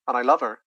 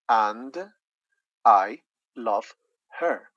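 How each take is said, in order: First: The words run together with sounds lost. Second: Each word is said separately and fully. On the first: "if we say this together" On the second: "they're going to say"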